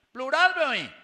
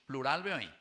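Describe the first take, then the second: First: "Plural" gritado agudo y fuerte; loud. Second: Said in the usual way. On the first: Shown as a demonstration. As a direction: grita "Plural" muy alto. ("Plural" a gritos) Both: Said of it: "repeats word".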